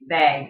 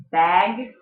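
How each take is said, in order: First: "bag" said as "beg"; Yooper accent. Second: Said in the usual way. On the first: Shown as a demonstration. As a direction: raise the vowel of "bag" toward "bayg". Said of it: "we get bag". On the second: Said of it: "Instead of bag".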